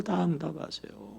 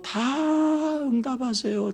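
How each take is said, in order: First: "다 응답하세요" repeated softly, falling; quiet echo. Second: "다" stretched high and slow; emphatic. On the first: Preacher repeating to the congregation, soft echo. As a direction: let it fall soft as an echo. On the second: Preacher stressing God answers every prayer, drawn out. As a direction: lean on "다" slowly and high. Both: Acted.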